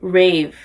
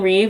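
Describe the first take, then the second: First: The name is said with an 'ay' vowel. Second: The name is said with an 'ee' vowel. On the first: The speaker calls it right. "I'm gonna use a little pronunciation guide" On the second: The speaker calls it wrong. "is that how you say her name?"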